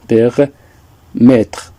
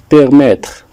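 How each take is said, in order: First: "Permettre" broken in two, per, pause, mettre; teacher splitting "Permettre" with a pause before "mettre"; syllable by syllable. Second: Said in the usual way. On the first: Shown as a demonstration. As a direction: sound out "Permettre" slowly in separate parts.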